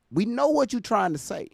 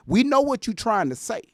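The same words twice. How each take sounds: First: "what" is the peak word, said at normal loudness; stress on what. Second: "know" lifted high and loud, rising at the end; stress on know. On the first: Repeating the point to women, now stressing "what". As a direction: put the weight on "what" instead. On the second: Telling women he gets their point, stress on "know". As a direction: lean hard on "know" and let the line climb. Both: Shown as a demonstration.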